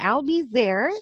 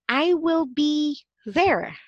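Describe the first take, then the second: First: I will is shortened to one syllable. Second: I will is said as two full words.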